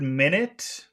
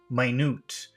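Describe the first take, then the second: First: It is pronounced as the unit of time. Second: It is pronounced as the word meaning tiny. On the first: It means sixty seconds. "is a small measurement of time" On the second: It means very small. "the very same spelling pronounced differently"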